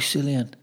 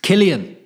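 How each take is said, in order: First: The name begins with a soft S sound. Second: The name begins with a hard K sound. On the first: This is how others wrongly call him. The speaker calls it wrong. "the Celtic fans that would call me Cillian" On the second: This is how the name is really said. The speaker calls it right. "It's Killian"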